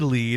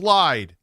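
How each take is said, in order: First: The vowel sounds like 'ee'. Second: The vowel sounds like 'eye'. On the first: This is how the speaker says it. "I say lead" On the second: This is how other people say it. "they're like, no, it's lied"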